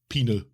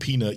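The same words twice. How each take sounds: First: The final T sound is dropped. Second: The final T sound is clearly pronounced. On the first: "you'd go like peanut" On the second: "instead of saying peanut"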